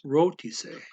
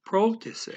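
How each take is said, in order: First: "rotise" starting straight on the R; "rotise" opening on a plain R; without the P. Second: "protise" opening on a P before the R; higher, louder "protise" with initial PR; added P. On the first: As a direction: say "rotise" with no P in front. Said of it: "it would tell you it's". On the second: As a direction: pop a little P onto "protise". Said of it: "putting a little P in there". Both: Shown as a demonstration.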